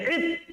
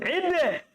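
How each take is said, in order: First: The final consonant stops cleanly without a bounce. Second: The final consonant ends with an echoing bounce. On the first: This is ordinary conversational speech. The speaker calls it right. "Jadi bilang saja id" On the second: This is the recitation style. The speaker calls it wrong. "tidak perlu ide"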